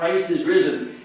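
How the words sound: It is cried out with excitement.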